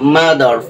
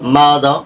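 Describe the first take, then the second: First: It is said with a Bengali English accent. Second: It is said with a native English accent. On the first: The speaker calls it wrong. "আমরা আর দিয়ে কি বলতেছি?" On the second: The speaker calls it right. "ওরা ওখানে কি বলতেছে?"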